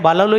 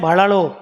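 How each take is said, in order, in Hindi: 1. बीच का व्यंजन सादा 'l' की आवाज़ है। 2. बीच का व्यंजन फ्लैप्ड 'r' की आवाज़ है। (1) "आप तो खैर भालालो ही लिखोगे" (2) "मारवाड़ी टंग में बोलते हैं भाड़ालो"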